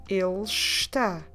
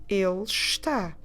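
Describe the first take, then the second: No difference in how they are said.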